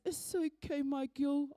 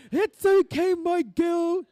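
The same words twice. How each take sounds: First: Soft, understated fatherly comfort; gentle reassurance. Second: Loud, high cry of comfort; booming reassurance. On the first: Dad forgiving his girl in his last week, gentle reassurance. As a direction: say it gently, as a dying dad's comfort. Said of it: "laughing and crying". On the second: Dad at each following pregnancy, loud high reassurance. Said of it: "it kinda was like that". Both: Retold or imitated.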